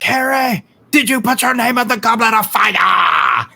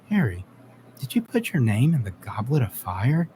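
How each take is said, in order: First: It is said in a frantic, agitated way. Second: It is said in a calm, quiet way.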